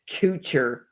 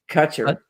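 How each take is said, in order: First: The first vowel sounds like 'coo'. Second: The first vowel sounds like 'cut'. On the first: "Why do you pronounce it "coocher"" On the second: "instead of"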